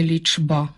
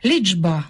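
First: Лічба with a plain ч; лічба pronounced with ч, the wrong form; unvoiced ч. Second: Лічба said as ліджба; Лічба pronounced ліджба; voiced ч. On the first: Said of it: "а не". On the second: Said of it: "а не лічба". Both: Shown as a demonstration.

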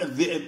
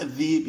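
First: الذئب with a glottal stop in the middle; formal pronunciation. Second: الذيب with a long ee, no glottal stop; colloquial pronunciation. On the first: Teacher correcting to the studied form, hamza pronounced. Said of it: "يقول عفوًا الذئب". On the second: Teacher quoting a student's dialect, colloquial pronunciation. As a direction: say الذيب with the hamza smoothed away. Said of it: "في الدراسة يدرس يقول". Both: Shown as a demonstration.

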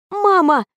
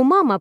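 First: Outraged shout, much higher and louder; indignant yell. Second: Said in the usual way. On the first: Acted. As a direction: yell her name in outrage. (возмущённый крик) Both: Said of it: "возмущённо заорала я".

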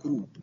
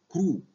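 First: "كروب" closed with an audible P; sounded final P. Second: "كرو" ending on a long oo, P left off; silent final P. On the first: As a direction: pronounce the P at the end of "كروب". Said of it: "وممكن تنطق كروب". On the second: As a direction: say "كرو" without closing the lips on a P. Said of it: "البي سايلنت". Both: Shown as a demonstration.

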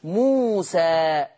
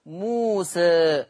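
First: موسى with open final a, slow; open alif. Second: موسى with final vowel tilted toward e; taqlil. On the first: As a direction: say موسى with fatḥ. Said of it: "بالفتح والتقليل". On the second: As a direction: say موسى with reduced alif. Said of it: "يقلل تبقى موسى". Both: Shown as a demonstration.

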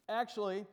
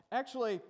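No difference in how they are said.

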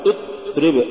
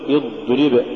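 First: اضرب with the ض snapped shut; cut-off dad. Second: Said in the usual way. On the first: Shown as a demonstration. Teacher warning against an error, cut-off ض in اضرب. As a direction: stop the sound dead on ض in اضرب. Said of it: "ولا تقل". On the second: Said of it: "قل".

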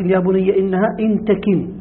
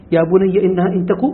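First: "تكن" بكسر الكاف، تَكِن; انطق "تكن" بكاف مكسورة ونون في آخرها; قراءة أخرى. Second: "تك" بضم التاء، تَكُ; انطق "تك" من الكون دون نون; القراءة المشهورة. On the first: ("إن تكن" على قراءة تَكِن بمعنى تختفي) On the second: ("إن تك" على القراءة المشهورة، تَكُ) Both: Shown as a demonstration. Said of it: "وفي قراءة".

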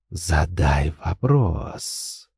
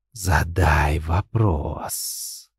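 First: Very slow, low, soft and creeping; rustling insinuating voice. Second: Very slow, low, soft rustle like dry leaves; a whisper of autumn leaves; rustling inner voice. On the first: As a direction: coax it out like rustling leaves. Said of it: "шелестящий вкрадчивый голос". (шелестящий вкрадчивый голос) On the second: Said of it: "похожий на шелест осенней листвы". (шелестящий голос, как осенняя листва) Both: Acted.

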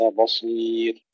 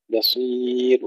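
First: Slow بصير with dark, rounded first syllable; wrong heavy ba. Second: Slow بصير with thin first syllable; light ba. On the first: Teacher shows the error, heavy ba in بصير. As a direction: thicken the ba of بصير toward bo. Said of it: "وليس". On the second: Teacher models correct بصير, light ba. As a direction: keep the ba of بصير thin before heavy sad. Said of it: "ترقيق الباء". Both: Shown as a demonstration.

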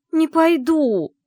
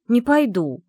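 First: Slow, high, loud refusal; drawn-out shout. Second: Higher and louder, firm no; stubborn refusal. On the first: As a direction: stretch out the cry of defiance. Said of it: "почти выкрикнула я". (медленный громкий выкрик отказа) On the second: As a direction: dig in your heels. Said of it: "нервно передёрнула я плечами". (громкий упрямый отказ) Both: Acted.

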